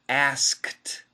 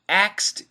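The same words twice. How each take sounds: First: The K sound is fully pronounced. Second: It sounds like the word axed. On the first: "perfect pronunciation" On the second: "it actually sounds like A X E D"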